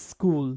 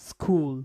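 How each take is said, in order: Both takes have the same delivery.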